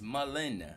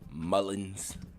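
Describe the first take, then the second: First: The name ends without any s sound. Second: The name ends with an added s sound. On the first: The speaker calls it right. "It's Mullen, not Mullins" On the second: The speaker calls it wrong. "How y'all used to say it like that?"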